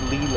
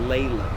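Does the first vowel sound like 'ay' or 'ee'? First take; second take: ee; ay. First: The first vowel sounds like 'ee'. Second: The first vowel sounds like 'ay'. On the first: The speaker calls it wrong. "you have to pronounce it not Leland" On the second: The speaker calls it right. "it's Leyland"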